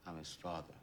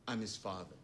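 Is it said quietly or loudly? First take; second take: quietly; loudly. First: It is said quietly. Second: It is said loudly.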